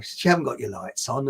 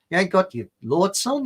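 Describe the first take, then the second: First: Said in the usual way. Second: Rough attempt at an Australian accent; mock policewoman with Australian vowels, higher-pitched. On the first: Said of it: "No, sorry, it's Australian". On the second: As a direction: put on a jokey Australian accent. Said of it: "I could do an Australian one".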